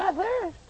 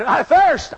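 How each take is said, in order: First: High, softer whining parody; mock his thirst. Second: Said in the usual way. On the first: Sinner mocking Jesus's thirst. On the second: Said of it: "When he cried".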